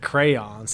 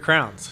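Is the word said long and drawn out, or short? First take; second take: long; short. First: The word is said long and drawn out. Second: The word is said short and clipped. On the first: The speaker calls it wrong. "Why would you go so long to say crayons? That's way too long" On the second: The speaker calls it right. "When you say just grab your crowns"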